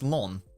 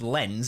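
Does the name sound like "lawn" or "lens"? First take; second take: lawn; lens. First: It has an open aw-like vowel, French style. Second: It has a plain e vowel and clear n. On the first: "Isn't it pronounced lawn?" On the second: "It's not pronounced lens, is it?"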